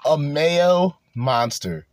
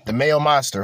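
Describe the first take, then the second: First: Drawn out slowly; slow savoring repeat. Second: Said in the usual way. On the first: Retold or imitated. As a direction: savor every word slowly. Savoring the clip line slowly.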